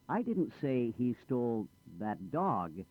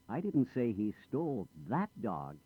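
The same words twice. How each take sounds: First: The word dog carries the main stress. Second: The word that carries the main stress. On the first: He took a different animal. "Not the dog. I said he stole the cat" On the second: He took a different dog. "Not that dog. He stole another dog"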